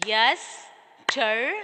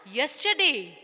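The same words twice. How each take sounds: First: "Yesterday" as yes... ter... day; slow, separate beats on "Yesterday"; syllable by syllable. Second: Said in the usual way. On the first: Shown as a demonstration. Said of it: "this how you can understand the syllables". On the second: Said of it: "Then the last one".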